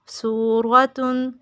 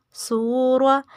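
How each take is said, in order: First: سورة said slowly as surwatun with the -tun ending; full word with tanween. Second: سورة read only as surwa, without the tanween ending; partial word, before the ending. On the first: Teacher finishing the spelled word for pupils, slow full surwatun. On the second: Teacher spelling the word again in Urdu terms, ends at surwa. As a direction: stop سورة at surwa and leave off the -tun. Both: Shown as a demonstration. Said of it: "تا دو پیش تون".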